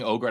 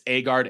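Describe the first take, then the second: First: The name starts with an 'oh' vowel. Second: The name starts with an 'ah' vowel. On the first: The speaker calls it wrong. "I keep saying Ogard" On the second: The speaker calls it right. "I'm going to pronounce it right"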